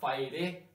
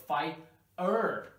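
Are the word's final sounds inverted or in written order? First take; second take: written order; inverted. First: The final sounds follow their written order. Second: The final sounds are inverted from written order. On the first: The speaker calls it wrong. "not fire" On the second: The speaker calls it right. "You have to invert the sound here"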